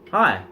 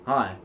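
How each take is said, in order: First: It is said louder and at a higher pitch. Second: It is said quieter and at a lower pitch. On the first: "Rising the frequency, the, the volume, as well as the pitch of it" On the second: "you can talk to someone like this"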